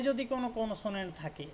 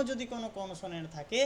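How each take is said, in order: Both takes have the same delivery.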